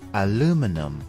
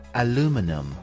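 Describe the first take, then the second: First: It is said the American way, four syllables. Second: It is said the American way, four syllables.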